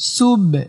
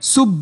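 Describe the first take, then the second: First: The final b is released with a short echo. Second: The final b stops with no echoing bounce. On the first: The speaker calls it right. "সুব এমন।" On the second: The speaker calls it wrong. "আপনি যদি বাতে কলকলা না করেন, সুব বলেন, তাহলে অশুদ্ধ হবে।"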